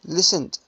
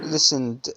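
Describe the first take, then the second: First: The ending is a plain d sound. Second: The ending adds an extra id syllable. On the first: The speaker calls it right. "listened مو" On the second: The speaker calls it wrong. "مو listened"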